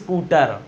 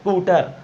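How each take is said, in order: First: A full 'i' vowel comes before the s. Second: Only a faint hint of 'i' precedes the s. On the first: The speaker calls it wrong. "ई बोलना भी नहीं आपको कि आप बोलने लगो" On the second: The speaker calls it right. "इस तरीके से बोलना है"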